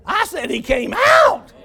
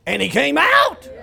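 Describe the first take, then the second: First: Loud, slow, high repeat; emphatic shout. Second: Said in the usual way. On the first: Real, not acted.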